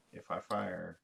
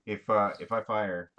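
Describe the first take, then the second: First: Softer, slower aside; low-key first mention. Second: Louder repeat to be heard; speaking up. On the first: Player quietly tells the table the plan, low-key. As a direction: say it softly, almost to yourself. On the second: Player repeats the plan for one who didn't hear, speaking up. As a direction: raise your voice for someone who missed it. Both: Real, not acted. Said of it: "I didn't hear it".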